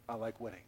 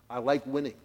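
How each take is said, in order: First: Hushed confession. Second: Said in the usual way. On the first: Acted. Hushed repeat for effect.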